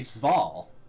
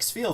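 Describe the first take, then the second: First: The vowel sounds like 'ay'. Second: The vowel sounds like a long 'ee'. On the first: This is how another language would read it. "you would actually pronounce the second one" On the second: This is the usual English reading. "we pronounce the first one, the E"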